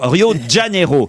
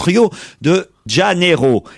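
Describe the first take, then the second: First: The name is pronounced in a contracted form. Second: The name is pronounced in full, Portuguese style. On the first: "la contraction donne bien sûr Rio de Janeiro" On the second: "en portugais on prononce Rio de Janeiro"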